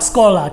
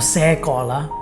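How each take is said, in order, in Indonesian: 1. Diucapkan cepat, suku kata pertamanya dipotong. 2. Diucapkan lebih lambat, suku kata pertamanya diucapkan penuh. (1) "itu cepat sekolah keluarnya" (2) "Aku pakai suku kata di di situ di se-nya"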